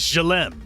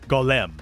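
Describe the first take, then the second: First: The word begins with a soft G sound. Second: The word begins with a hard G sound.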